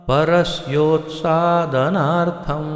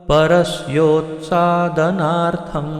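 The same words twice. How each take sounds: The two takes are said the same way.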